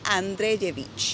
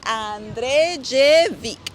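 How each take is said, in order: First: The name ends with a soft 'ch' sound. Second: The name ends with a hard 'k' sound. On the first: The speaker calls it right. "se pronuncia Andrejevic. Todo lo que termine en I C es Ich" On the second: The speaker calls it wrong. "así no se pronuncia"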